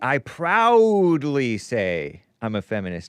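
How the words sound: It is said proudly and with conviction.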